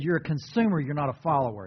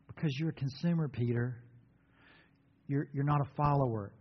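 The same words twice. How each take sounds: First: Said in the usual way. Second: Gentle rebuke. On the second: Shown as a demonstration. Jesus gently correcting Peter, softer. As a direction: correct him tenderly, not harshly. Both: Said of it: "And this is how he said it".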